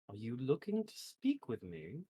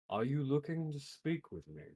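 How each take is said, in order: First: It is not spoken in the character's voice. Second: It is spoken in the character's own voice. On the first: The speaker calls it wrong. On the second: The speaker calls it right.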